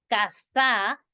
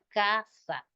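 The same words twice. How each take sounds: First: The stress is on the last syllable. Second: The stress is on the first syllable. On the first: The speaker calls it wrong. "llevara la tilde en la última sílaba" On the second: The speaker calls it right. "Su acento es en la penúltima"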